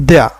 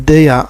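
Both takes have the same delivery.

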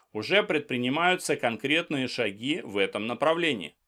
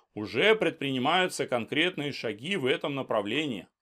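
The two takes are said the same way.

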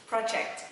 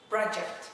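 No difference in how they are said.

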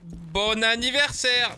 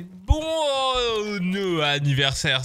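First: The phrase is said at normal speed. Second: The phrase is said slowly, drawn out. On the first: "on fait la liaison" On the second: "si on le faisait en slow motion"

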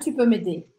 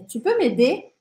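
First: The pitch stays flat or falls at the end. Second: The pitch rises at the end. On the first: It does not sound like a question. The speaker calls it wrong. "Não é tu peux m'aider" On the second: It shows that it is a question. The speaker calls it right. "Tá vendo que a gente sobe?"

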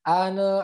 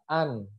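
First: The final n is released with a bounce. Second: The final n is held without release. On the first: The speaker calls it wrong. "nunnya itu dipantul ... nggak boleh" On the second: The speaker calls it right. "harus tertahan"

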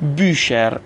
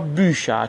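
First: The word ends with an audible r sound. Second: The word ends with an open ah vowel. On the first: "اگه به صورت همون ار هم تلفظ کنیم مشکلی نداره" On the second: "به صورت آ تلفظ میشه"

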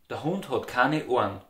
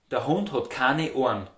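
Both takes have the same delivery.

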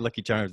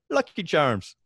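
First: It is said in a plain American accent. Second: It is said in a put-on Irish accent. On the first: "you can't say Lucky Charms" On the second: "without going, Lucky Charms"

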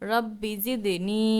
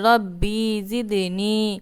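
First: The first word is said quickly and short. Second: The first word is said slowly and drawn out. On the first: The speaker calls it right. "তাড়াতাড়ি করে পড়তে হবে" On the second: The speaker calls it wrong. "অনেকে পড়েন যে রব্বি জিদ নি"

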